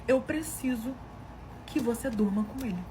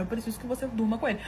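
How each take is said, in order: First: Haltingly voiced plea with a pause after "preciso"; halting request. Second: Blunt, point-blank. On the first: Husband making a shocking request of his wife, haltingly. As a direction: hold back after "preciso" before finishing. Pedido encenado com pausa antes. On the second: Retold or imitated. Husband asking right to his wife's face, bluntly. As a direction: imitate an unhesitating, straight-out request. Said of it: "Assim, na lata, na minha cara".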